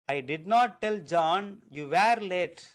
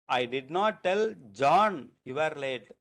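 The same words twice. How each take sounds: First: The stress falls on the word you. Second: The stress falls on the word John. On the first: Someone other than the listener was late. "That means that you you were not late, you are also late" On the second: Someone other than that person was told. "the stress is on John"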